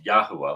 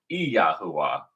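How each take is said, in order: First: Yahuwah starting straight on Y, YA-hoo-ah; English-style pronunciation. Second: Yahuwah opened with a clear "ee", ee-yah-hoo-ah; proper pronunciation. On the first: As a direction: say Yahuwah with no ee before the Y. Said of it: "not just Yahuwah, like we're in English". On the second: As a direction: sound an ee before Yahuwah. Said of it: "to actually be properly pronounced". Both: Shown as a demonstration.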